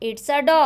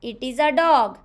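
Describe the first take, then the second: First: It is contracted into one short syllable. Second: It is said in full, two separate words.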